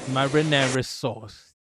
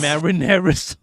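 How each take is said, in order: First: Slow mock Chicago "Marinara sauce" with a drawn-out "sauce"; imitating Chicago accent. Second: Louder mock Chicago "Marinara sauce", flat open a's; imitating Chicago accent. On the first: Streamer copies the Chicago sample lady, slow mock accent. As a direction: savor "Marinara sauce" slowly like the Costco lady. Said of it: "It sounds a bit Italian". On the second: Streamer teasing his chat about the Chicago accent, louder mock accent. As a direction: belt out "Marinara sauce" like the Chicago sample lady. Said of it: "Is that how you talk".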